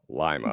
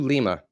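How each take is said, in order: First: It is said the way the Ohio town is. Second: It is said the way the Peruvian capital is. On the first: It names the town in Ohio. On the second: It names the capital of Peru.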